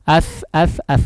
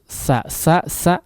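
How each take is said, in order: First: The consonant is a soft th sound. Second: The consonant is a hissing s sound. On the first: The speaker calls it right. "dikeluarkan ya, ujung lidahnya dikeluarkan" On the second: The speaker calls it wrong. "Jangan diucapkan di dalam ya, atau lidahnya di dalam"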